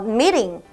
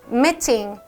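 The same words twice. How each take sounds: First: It is said in an American accent, soft T. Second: It is said in a British accent, clear T. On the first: "미국에서는 T 발음을 많이 없애요" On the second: "영국에서는 살려서 meeting"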